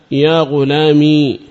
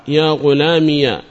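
First: يا غلامي ending on a long, vowelless ī; still final ya. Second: يا غلامي said as "ya ghulāmiya"; opened final ya. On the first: Teacher showing the first dialect, يا غلامي with a silent-vowel ya ending in long ī. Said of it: "ساكنة". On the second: Teacher showing the second dialect, يا غلامي ending in -iya. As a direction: add a short a after the ya of يا غلامي. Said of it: "إثباتها مفتوحة". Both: Shown as a demonstration.

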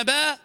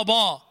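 First: "با" as light "bae"; thin B. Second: "با" as thick "baw"; heavy B. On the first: Teacher contrasting two sounds, thin B. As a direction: say با thin and fronted. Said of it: "شوف فرق بين با". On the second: Teacher contrasting two sounds, heavy B. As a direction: say با full and backed. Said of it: "وبين با". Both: Shown as a demonstration.

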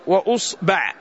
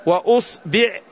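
First: وأصبع said "wa us-ba'", u then a; short u, then open a in وأصبع; damma, then fatha. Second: وأصبع said "wa us-bi'", u then i; short u, then short i in وأصبع; damma, then kasra. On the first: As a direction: split وأصبع, ending on "ba'". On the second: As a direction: split وأصبع, ending on "bi'". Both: Shown as a demonstration. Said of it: "فبدل الفتح نقول بالضم".

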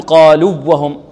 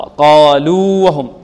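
First: قالوا وهم with the waws fused; wrong merging. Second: قالوا وهم with long held oo, then separate waw; slow, unmerged قالوا وهم; correct separation. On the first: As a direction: cut قالوا short into a doubled w of وهم. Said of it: "لا نقول". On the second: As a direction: stretch قالوا before وهم. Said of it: "خطأ". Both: Shown as a demonstration.

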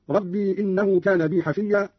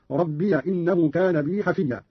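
First: Said in the usual way. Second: "ربي" opened into rabbiya; slow recitation, "ربي" as rab-bi-ya; fatha on ya. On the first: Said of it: "بفتح الياء". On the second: Shown as a demonstration. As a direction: add a short a to "ربي" before "إنه". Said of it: "قرأ قالون بفتح الياء هكذا".

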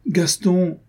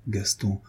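First: A wounded protest at his name; pained cry. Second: Tender murmur. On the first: Adrienne crying out to Gaston, hurt and higher. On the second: Adrienne gently calling her lover by name. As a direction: soften right down on his name. Tender address mid-plea. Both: A narrator's reading.

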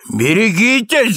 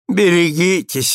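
First: Cried warning. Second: Mildly patronizing caution; condescending. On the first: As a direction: call out the warning in alarm. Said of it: "закричал супруг". (предостерегающий выкрик) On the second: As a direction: warn with lofty indulgence, without shouting. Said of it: "снисходительно сказал супруг". (снисходительно) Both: A narrator's reading.

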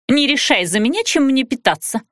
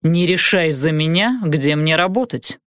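First: Higher-pitched, irritated snap; snappish retort. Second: Cool, measured comeback; parrying retort. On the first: Woman snapping at her companion over food, higher-pitched. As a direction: bristle at being told. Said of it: "огрызнулась Лерия". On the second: Man parrying her snap about his work, coolly. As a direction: hand the words back evenly. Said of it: "парировал Уилфорд". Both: A narrator's reading.

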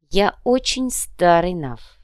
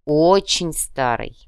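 First: Confiding. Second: Slow, drawn-out confiding repeat; slow confiding echo. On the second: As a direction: lean in and confide it slowly. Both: A narrator's reading. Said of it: "доверительно сообщил Ярго".

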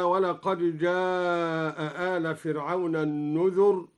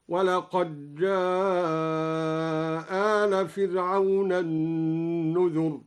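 First: Said in the usual way. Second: جاء آل with one hamza dropped and the vowel drawn long, very slow; recited with the hamza dropped. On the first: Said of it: "قرأ الدوري بإدغام الدال في الجيم". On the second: Shown as a demonstration. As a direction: draw out جاء آل slowly with one hamza gone. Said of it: "بإسقاط إحدى الهمزتين على القصر والمد". (إسقاط إحدى الهمزتين مع المد)

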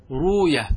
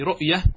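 First: "روية" as ruu-yah, no glottal stop; hamza softened away. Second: Said in the usual way. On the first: Shown as a demonstration. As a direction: glide from a long u into ya in "روية". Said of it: "إن عرضت الياء أو الواو للسكون". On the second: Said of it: "وكذا إن عرضت الياء أو، ... الواو للسكون".

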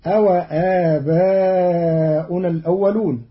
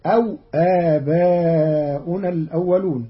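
First: Said in the usual way. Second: أو with the waw silent, aw, not a-wa. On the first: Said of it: "قرأ قالون كلمة". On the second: Shown as a demonstration. Teacher shows Qalun's أو with a silent waw. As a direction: say أو as one syllable, aw. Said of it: "بإسكان الواو".

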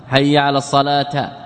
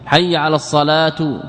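First: الصلاة ending in -ta, assalata; taa with a. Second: الصلاة ending in -tu; taa with u. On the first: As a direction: end الصلاة on an a. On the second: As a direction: end الصلاة on a u. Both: Shown as a demonstration. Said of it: "كرفع تاء الصلاة ونصبها".

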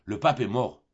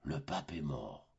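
First: A touch of breathless urgency on pape; breathless announcement. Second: Much lower, much softer, slow echo; stunned echo. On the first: Boy lying to his mother, mildly breathless and urgent. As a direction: blurt it out a little louder, short of breath. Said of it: "l'essoufflement d'une grande émotion". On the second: Pious mother hearing the pope is dead, stunned hush. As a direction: repeat it stunned and hushed, as if struck. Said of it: "fit la pauvre mère". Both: Acted.

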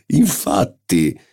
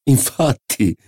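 First: Slow, drawn-out mocking echo; drawn-out agreement. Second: High, quick swaggering agreement; bold agreement. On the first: Marquis echoes his own agreement, slow and teasing. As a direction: stretch the second one out. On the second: Marquis agrees with the doctor, high and swaggering. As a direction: toss it off boldly. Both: A narrator's reading. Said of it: "ridendo spavaldamente".

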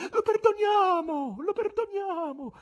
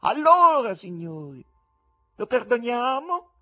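First: Very high, slow falling cries; women's voices in the crowd. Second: High, loud showman's question, rising at the end. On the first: Female spectators answering the showman, high pleading cries. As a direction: call out mercy, one voice after another. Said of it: "dapprima isolate e in prevalenza femminili". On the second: Showman asking the spectators for a verdict, loud high question. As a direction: put it to the crowd, ringing out. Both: A narrator's reading.

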